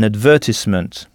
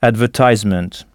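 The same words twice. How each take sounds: First: It is said with a British pronunciation. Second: It is said with an American pronunciation.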